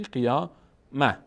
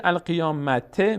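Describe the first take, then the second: First: قیامه drawn out slowly, closing on h; pausal he ending. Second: القیامته with the final te fully voiced; continued reading with ending. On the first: Teacher shows the word at a stop, pausal h. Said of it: "هم علامتش میپره". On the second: Tajweed teacher reads the word before stopping, full ending. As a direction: sound the vowelled te ending in القیامته. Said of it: "در توقف هم نقطه ها میپره". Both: Shown as a demonstration.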